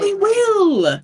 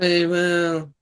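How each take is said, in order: First: It is said loudly, with lively energy. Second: It is said in a flat, droning monotone.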